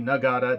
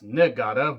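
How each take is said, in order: First: "Nagata" starting NAH, like Yuji's surname; first syllable of "Nagata" said with A, not I. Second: "Nagata" slowed, its first vowel changed to an I; "Niigata" with an I. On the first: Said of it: "not Yuji Nagata, that's Nagata with an I". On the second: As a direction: say "Nagata" as NEE-gata, I in the first syllable. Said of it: "that's Nagata with an I". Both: Shown as a demonstration.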